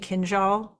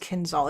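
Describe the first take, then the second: First: The middle consonant is a soft zh sound. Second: The middle consonant is a plain z sound. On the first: The speaker calls it right. "It's actually Kinjal" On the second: The speaker calls it wrong. "Everybody pronounces it wrong as Kinzal"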